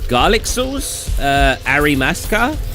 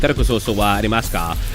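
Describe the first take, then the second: First: It is said haltingly, with a hesitation. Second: It is said smoothly and confidently.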